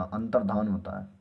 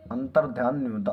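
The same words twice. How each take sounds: First: अंतर्धान said with dhaan, no ya after dh; teacher models अंतर्धान as right; correct form given. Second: अंतर्ध्यान said with dhyaan, a ya after dh; teacher flags अंतर्ध्यान as the wrong form; wrong form named. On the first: Teacher to class, giving अंतर्धान as the correct form. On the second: Teacher to class, naming अंतर्ध्यान as the wrong form. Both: Shown as a demonstration.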